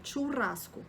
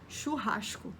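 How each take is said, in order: First: It is said with a Spanish accent. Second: A throaty R and a hushed S are used. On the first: "em espanhol é churrasco" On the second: "No Rio de Janeiro seria churrasco. Isso com o chiado ainda do carioca"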